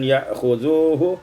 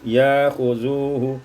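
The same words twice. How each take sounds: First: A glottal stop is heard after ya. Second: A long vowel replaces the glottal stop.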